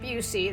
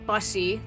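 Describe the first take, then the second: First: The first syllable does not sound like 'bus'. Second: The first syllable sounds like the word 'bus'. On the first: The speaker calls it wrong. "not Busey" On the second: The speaker calls it right. "like a bus"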